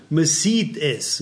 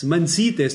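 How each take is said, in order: First: Slow emphatic. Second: Said in the usual way. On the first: Shown as a demonstration. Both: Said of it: "das heißt ganz einfach".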